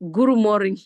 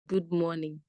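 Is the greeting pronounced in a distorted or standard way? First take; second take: distorted; standard. First: The greeting is distorted, like 'guru morin'. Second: The greeting has the standard English pronunciation. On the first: "he was saying Guru Morin" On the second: "meaning good morning"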